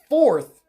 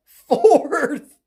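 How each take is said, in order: First: Said in the usual way. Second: Higher, louder, laughing disbelief; laughing, drawn-out exclamation; incredulous repeat. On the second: Real, not acted. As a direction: blurt it out through a laugh, amazed.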